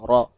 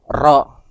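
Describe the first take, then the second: First: The r is trilled with few vibrations. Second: The r is trilled with many vibrations. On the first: The speaker calls it right. "Jadi sedikit aja" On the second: The speaker calls it wrong. "itu uh, over ya"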